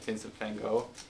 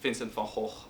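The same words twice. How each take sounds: First: The name is said with an English pronunciation. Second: The name is said with a Dutch pronunciation. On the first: The speaker calls it wrong. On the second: The speaker calls it right.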